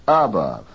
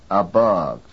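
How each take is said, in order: First: ABOVE wrongly stressed on a full A; stress moved to first syllable. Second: ABOVE stressed on BOVE; stress on second syllable. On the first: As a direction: hit the A of ABOVE, weaken bove. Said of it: "from the second to the first". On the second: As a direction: keep the A of ABOVE weak, hit BOVE. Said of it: "The second". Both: Shown as a demonstration.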